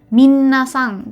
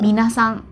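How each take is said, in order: First: The n sound is held long, doubled. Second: The n sound is short, single. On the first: The speaker calls it wrong. "masih banyak yang menyebutkannya tuh minasang" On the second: The speaker calls it right. "Padahal sebetulnya yang betul adalah minasang"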